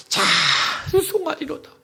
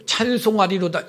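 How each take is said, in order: First: High, slow, drawn-out cry of joy; ecstatic exclamation. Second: Said in the usual way. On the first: Shown as a demonstration. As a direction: let it burst out like a man overwhelmed. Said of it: "바울이 감옥에서 미쳤어". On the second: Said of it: "이렇게 읽는 게".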